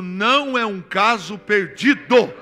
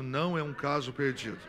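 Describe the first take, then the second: First: It is said more loudly. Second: It is said at a normal volume.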